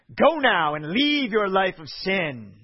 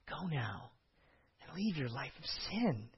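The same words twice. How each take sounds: First: It sounds stern and threatening. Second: It sounds gentle and compassionate. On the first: Stop sinning or face worse punishment next time. "I kind of typically always read it like" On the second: You are not condemned and are free to go. "my tone of voice is intentional"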